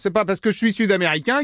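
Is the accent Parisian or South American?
Parisian. It is spoken with a Parisian French accent. "avec un accent parisien"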